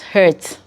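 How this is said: The vowel sounds like the one in 'hurt'. This is how people in Cameroon say it. "We here in Cameroon will pronounce it as"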